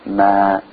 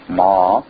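First: The syllable is thin and small. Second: The syllable is full, filling the mouth. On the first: The speaker calls it right. "we make it thin and small" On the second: The speaker calls it wrong. "we don't fill the mouth with sound"

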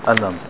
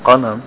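First: The word starts with a glottal stop. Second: The word starts with a deep q sound. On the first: The speaker calls it wrong. "they change the qaf to a hamza" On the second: The speaker calls it right. "instead of saying qalam"

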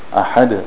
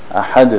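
No difference in how they are said.

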